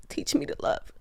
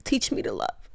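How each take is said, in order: First: Higher whispered plea. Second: Whispered prayer. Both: Real, not acted. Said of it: "my one prayer always is".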